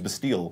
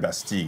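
First: It is said with an American pronunciation. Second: It is said with a French pronunciation. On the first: The speaker calls it wrong. "I keep hearing all these US interviews" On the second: The speaker calls it right. "Because it's a French word"

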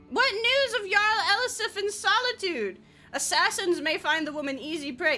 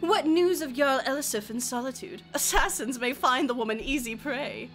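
First: It is read in her plain voice. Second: It is read in a snide put-on voice.

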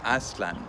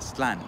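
First: The stress falls on the first syllable. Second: The stress falls on the second syllable. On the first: The speaker calls it right. "The correct Nahuatl pronunciation is Aztlan" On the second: The speaker calls it wrong. "which is a Hispanicized pronunciation and incorrect if you're following Nahuatl phonetics"

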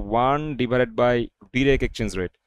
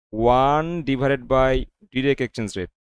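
Both takes have the same delivery.

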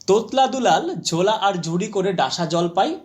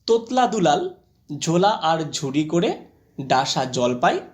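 First: The line is spoken at a quicker pace. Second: The line is spoken at a slower pace.

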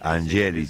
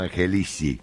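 First: The stress is on the syllable ge. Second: The stress is on the syllable li. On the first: This follows the name's original Italian form. "se dice Angelici, con acento en la E" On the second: This is how most people say the name. "Yo le digo Angelici, como todo el mundo"

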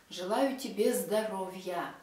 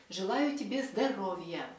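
The two takes are said the same way.

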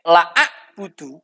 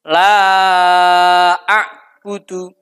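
First: The vowel in 'la' is cut short. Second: The vowel in 'la' is held long. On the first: I truly do worship. The speaker calls it wrong. "kalau dibaca pendek" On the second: I do not worship. The speaker calls it right. "yang seharusnya dibaca panjang"

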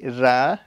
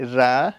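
First: The vowel is a thin, open 'ah'. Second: The vowel is a thin, open 'ah'.

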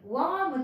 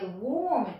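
First: The vowel sounds like the vowel in arm. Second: The vowel sounds like the vowel in or. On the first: The speaker calls it wrong. "warm という音じゃなくて" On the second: The speaker calls it right. "おーという音に変わるんですね"

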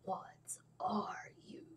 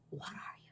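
First: It is said in a dramatic anime-style voice. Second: It is said in a plain, ordinary voice.

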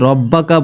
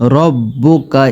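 First: The vowel after the double b is a. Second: The vowel after the double b is u. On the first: The speaker calls it wrong. "এখানে অনেকে রব্বাকা বলে থাকে" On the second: The speaker calls it right. "এখানে উপরে দেখতে পাচ্ছেন যে পেশ আছে।"

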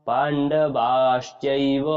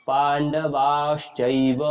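Both takes have the same delivery.

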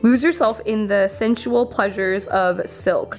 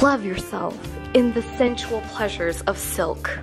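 First: It is read in a plain voice. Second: It is read in a sultry voice.

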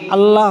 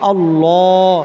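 First: The L sound is thin and light. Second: The L sound is heavy and full. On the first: The speaker calls it wrong. "আল্লাহ হবে না" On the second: The speaker calls it right. "মোটা হবে"

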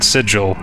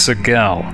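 First: The g is soft, like a j. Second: The g is hard, as in go. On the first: The speaker calls it wrong. "It's not Sigil" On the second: The speaker calls it right. "is pronounced with a hard G as well"

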